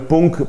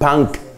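First: The word is read with Spanish sounds. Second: The word is said with English sounds. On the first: "Uno lo leería en español" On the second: "en inglés lo dicen"

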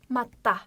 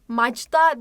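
First: The middle consonant is a doubled 't' sound. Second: The middle consonant is a soft 'dj' sound. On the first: The speaker calls it right. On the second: The speaker calls it wrong. "burası da macda değil"

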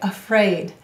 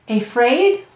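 First: The first vowel is a weak 'uh' sound. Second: The first vowel is a full long 'ay' sound. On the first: This is how the word is normally spoken. "or we say afraid" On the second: This is how the word is spelled out. "Let's sound it out"

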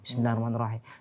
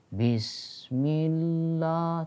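First: It is recited at a fast pace. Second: It is recited at a slow pace. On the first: "Itu kan cepat, tapi benar" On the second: "Ada yang lambat"

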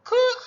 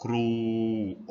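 First: The name is said in a shrill, high voice. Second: The name is said in a deep, low voice. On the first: "เสียงแหลมสูง" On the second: "เสียงทุ้มต่ำ"

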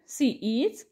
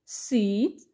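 First: Two separate full words are said. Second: The words merge into one short syllable.

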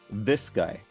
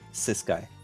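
First: The first word begins with a 'th' sound. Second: The first word begins with an 's' sound. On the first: The speaker calls it right. "By pronouncing correct THs" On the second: The speaker calls it wrong.

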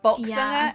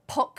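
First: The first sound is a clear b. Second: The first sound is a clear p. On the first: "And it's not boxinger" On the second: "it's not a B and it's not a P. It's like a it's not poxinger"

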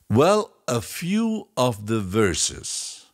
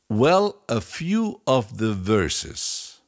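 No difference in how they are said.

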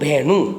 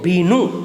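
First: The first vowel is a mid 'e' sound. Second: The first vowel is a close 'ee' sound. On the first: This is how the dialect speakers say it. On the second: This is the standard form of the word.

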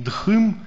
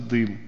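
First: The first consonant has a puff of breath. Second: The first consonant has no puff of breath. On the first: This is the older aspirated form, lost in Russian. The speaker calls it wrong. "То есть не «дхым»" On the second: This is the modern Russian form without aspiration. The speaker calls it right. "просто «дым»"

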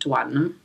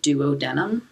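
First: The word is said in the usual spoken way. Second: The word is said the way it is spelled. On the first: "but people pronounce it duodenum" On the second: "It's spelled like duodenum"

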